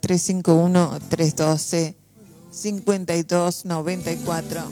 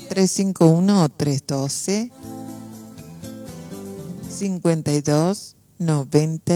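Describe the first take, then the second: First: The number is said fast. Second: The number is said slowly.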